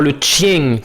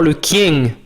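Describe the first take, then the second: First: The noun begins with a ch sound. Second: The noun begins with a hard k sound. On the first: This is the later Old French form. "On ne disait pas encore le chien, comme ça sera le cas en ancien français" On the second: This is the older form, still close to Latin. "on disait encore le kien"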